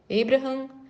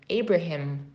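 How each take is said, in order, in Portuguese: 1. O nome é pronunciado com sotaque português. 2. O nome é pronunciado com sotaque inglês. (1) "portuguesar um pouquinho mais para facilitar" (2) "a pronúncia em inglês seria Abraham"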